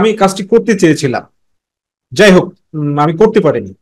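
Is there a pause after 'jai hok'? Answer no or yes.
yes. There is a pause after jai hok. The speaker calls it right. "আমরা কথা বলার সময় কি বলি দেখো"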